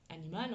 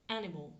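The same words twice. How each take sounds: First: Said in the usual way. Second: "animal" in English, first syllable stressed; English pronunciation. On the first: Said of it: "ça s'écrit pareil, ok, qu'en français". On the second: Shown as a demonstration. Teacher demonstrating word stress to learners, English "animal" stressed on AN. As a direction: say "animal" the English way, AN-i-mal, with the ending fading. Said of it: "l'accent tonique est sur ma première syllabe".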